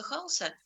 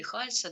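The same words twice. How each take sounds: First: "Халса" with a hard L; hard L variant. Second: "Хальса" with a soft L; soft L variant. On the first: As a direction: pronounce "Халса" with an unpalatalised L. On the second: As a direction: say "Хальса" with a palatalised ль. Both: Shown as a demonstration. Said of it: "у нас по-разному произносят".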